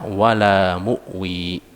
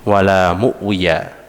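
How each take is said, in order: First: The last word stops short, dropping the final syllable. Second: The last word ends with a full final syllable. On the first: "diwaqafkan sehingga dibaca wala mu'wi" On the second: "Di situ tertulis wala mu'wiya"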